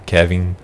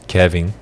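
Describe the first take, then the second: The two takes are said the same way.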